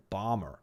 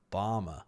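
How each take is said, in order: First: "bomber" in an American accent, with a clear r at the end, "bomber". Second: Said in the usual way. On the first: Shown as a demonstration. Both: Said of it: "if you say it in an American accent".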